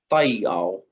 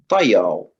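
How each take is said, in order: First: It is said slowly with the vowels kept apart. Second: It is said quickly with the vowels blended together. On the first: "it goes from pai ow" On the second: "You can really hear the blending of the vowels as you say it faster and faster"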